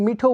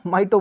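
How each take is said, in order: First: It begins with 'mee' and an aspirated t. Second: It begins with 'my' and a plain t. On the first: "कुछ लोग इसको मीठो बोलेंगे" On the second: "कुछ लोग इसको माइटो बोलेंगे"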